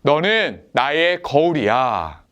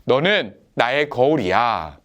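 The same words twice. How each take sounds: First: Slow, clear line to echo once more; slow repeat-after-me line. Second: Put-on slow, clear line for the children to repeat; slow repeat-after-me line. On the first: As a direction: lead the repeat slowly, word by word. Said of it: "한 번 더 따라해 볼까요?". (천천히 또박또박 다시 따라 하게) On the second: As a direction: say it slowly so they can echo it. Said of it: "이렇게 한번 따라해 봅시다". (천천히 따라 하게 또박또박) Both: Shown as a demonstration.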